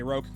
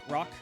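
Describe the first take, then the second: First: The vowel rhymes with 'oak'. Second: The vowel does not rhyme with 'oak'. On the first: The speaker calls it right. "rhymes with oak" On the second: The speaker calls it wrong. "Am I pronouncing that right?"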